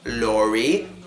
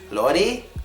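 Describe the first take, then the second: First: The tongue stays off the roof on the r. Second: The tongue touches the roof on the r. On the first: The speaker calls it right. "It should be red, lorry" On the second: The speaker calls it wrong. "It should not be lorry"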